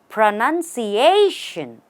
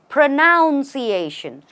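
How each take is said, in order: First: The second syllable sounds like 'nun'. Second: The second syllable sounds like 'noun'. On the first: The speaker calls it right. "the way to say this correctly is pronunciation" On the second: The speaker calls it wrong. "Because you pronounce a word, they say pronunciation"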